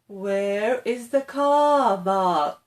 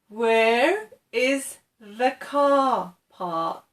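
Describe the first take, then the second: First: The last word begins with a B sound. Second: The last word begins with a P sound. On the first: The speaker calls it wrong. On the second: The speaker calls it right.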